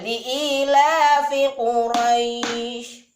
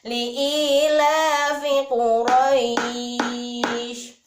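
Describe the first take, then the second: First: The vowel in Quraisy is held for two beats. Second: The vowel in Quraisy is held for four beats. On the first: "boleh dua harokat" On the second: "empat harokat"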